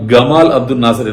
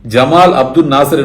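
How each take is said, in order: First: The name begins with a hard 'g' sound. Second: The name begins with a soft 'j' sound. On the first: "கமால் அப்துல் நாசர் என்றுதான் உச்சரிப்பார்கள்" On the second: "ஜமால் Abdul நாசர் என்று பெயர் வைத்தால்"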